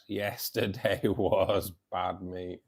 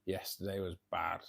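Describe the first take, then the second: First: Drawn out slowly through a laugh. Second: Said in the usual way. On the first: Real, not acted. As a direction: laugh the words out, dragging them.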